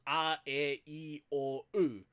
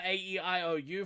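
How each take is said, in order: First: A, E, I, O, U as pure vowels: ah, eh, ee, or, oo; Māori vowel sounds. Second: Said in the usual way. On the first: Shown as a demonstration. Teacher showing learners the five Māori vowels, pure A, E, I, O, U. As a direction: say A, E, I, O, U with Māori vowels, not English letter names. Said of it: "those are the vowel sounds for Māori". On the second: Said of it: "Instead of A".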